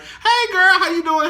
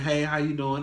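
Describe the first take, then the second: First: The greeting sounds cheerful and bubbly. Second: The greeting sounds flat and gloomy.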